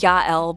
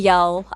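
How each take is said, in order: First: The name is said in its full form. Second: The name is said in a shortened, simplified form. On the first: This is how the name is meant to sound. The speaker calls it right. "it's supposed to be Yael" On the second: The speaker is being lazy with the name. The speaker calls it wrong. "I call him Yell"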